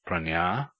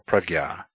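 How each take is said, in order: First: The middle cluster sounds like ny. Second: The middle cluster sounds like gy. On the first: "is pronounced pranya" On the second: "or prajna"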